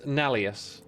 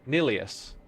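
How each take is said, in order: First: The first vowel sounds like 'ah'. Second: The first vowel sounds like 'ih'. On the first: The speaker calls it wrong. "I think it's Nalius" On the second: The speaker calls it right. "Nilius. N I L"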